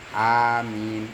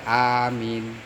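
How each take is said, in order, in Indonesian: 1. Vokal a pertama dibaca pendek. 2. Vokal a pertama dibaca pendek.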